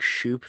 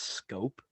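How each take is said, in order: First: The name begins with an sh sound. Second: The name begins with an sk sound. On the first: The speaker calls it wrong. "Have I been saying shoop this entire time" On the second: The speaker calls it right. "it's been pronounced scope?"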